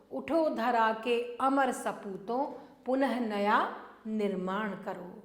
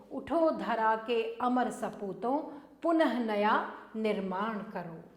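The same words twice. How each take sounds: The two takes are said the same way.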